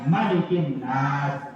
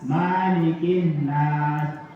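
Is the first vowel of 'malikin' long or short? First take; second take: short; long. First: The first vowel of malikin is kept short. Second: The first vowel of malikin is drawn out long. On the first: The speaker calls it right. "harus bacaannya pendek" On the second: The speaker calls it wrong. "Jangan dibaca"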